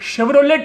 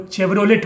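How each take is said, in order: First: The word begins with an sh sound. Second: The word begins with a ch sound. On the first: The speaker calls it right. "जो शेवरोलेट है" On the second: The speaker calls it wrong. "वो चेवरोलेट बन जाता है"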